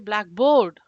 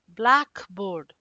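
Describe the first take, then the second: First: The stress is on the second part, board. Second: The stress is on the first part, black. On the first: The speaker calls it wrong. "We are not going to say blackboard. No, it doesn't even sound right" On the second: The speaker calls it right. "stress is on the first word, like blackboard"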